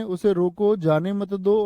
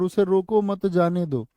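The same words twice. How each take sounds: First: "उसे रोको" rising, then "जाने मत दो"; break after रोको. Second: "उसे रोको मत", then falling "जाने दो"; break after मत. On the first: Teacher recaps how meaning changed, break after रोको. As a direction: lift रोको and keep मत with जाने. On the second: Teacher recaps how meaning changed, break after मत. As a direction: keep मत with रोको, let जाने दो fall. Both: Shown as a demonstration. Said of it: "अर्थ बदल गया".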